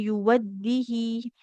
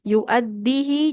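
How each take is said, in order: First: A w sound follows the first syllable. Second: A glottal stop follows the first syllable. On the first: The speaker calls it wrong. "jadi bukan yuwaddihi" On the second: The speaker calls it right. "tapi yu'addihi"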